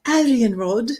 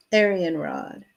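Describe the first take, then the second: First: Playful mock British accent; hammed-up British "Aryan Rod". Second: Said in the usual way. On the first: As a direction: put on a British accent for the name. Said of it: "that was with a British accent".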